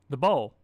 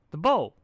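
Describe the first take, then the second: First: Louder, landing on "bowl"; firm insistence. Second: Much louder, higher "bowl"; emphatic repeat. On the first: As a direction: plant "bowl" hard. Pinkamena insisting. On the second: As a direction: bang down "bowl" with impatience. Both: A narrator's reading.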